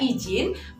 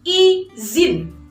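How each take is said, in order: First: The middle consonant is a j sound. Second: The middle consonant is a z sound. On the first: The speaker calls it wrong. "mengucapkannya izin seperti menggunakan huruf J" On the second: The speaker calls it right. "Yang betul adalah izin"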